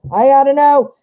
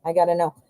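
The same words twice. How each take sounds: First: Higher and louder, bursting with suspense; excited outburst. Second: Said in the usual way. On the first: Real, not acted. Reader dying to see the outcome card, excited. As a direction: blurt it out, you can't wait another second. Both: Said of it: "Ooh, I'm dying".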